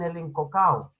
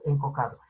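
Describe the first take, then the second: First: "encocao" with the final d dropped; coastal pronunciation. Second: "encocado" with the d sounded; highland pronunciation. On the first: Teacher showing the class how the coast says it, "encocao" without the d. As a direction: say "encocao", running a-o together with no d. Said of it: "Los señores de la costa dicen". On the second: Teacher showing how they say it here, "encocado" with a clear d. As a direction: say "encocado" in full, keeping the final -do. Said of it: "Nosotros aquí decimos". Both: Shown as a demonstration.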